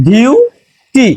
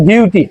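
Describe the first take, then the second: First: ডিউটি stretched very slowly, dee-YOO-tee, a bit higher; slow model pronunciation. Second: Said in the usual way. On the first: Shown as a demonstration. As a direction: draw out ডিউটি syllable by syllable for the class. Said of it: "তাহলে আমরা লিখতে পারি ডিইউটিওয়াই". (ডিউটি খুব ধীরে টেনে টেনে উচ্চারণ) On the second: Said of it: "যে শব্দটা লিখছি ডিউটি".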